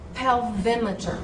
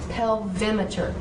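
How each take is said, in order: First: The stress is on the second syllable. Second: The same.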